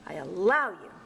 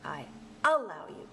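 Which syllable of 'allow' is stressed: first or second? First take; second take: second; first. First: The stress is on the second syllable. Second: The stress is on the first syllable. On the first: The speaker calls it right. "the strong stress has to be on that second syllable" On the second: The speaker calls it wrong. "No, that doesn't sound right"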